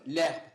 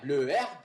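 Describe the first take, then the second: First: The article's vowel is dropped before the noun. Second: The article keeps its vowel before the noun. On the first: "il autorise à ce que le E de l'article le s'efface" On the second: "Le herbe donne l'herbe"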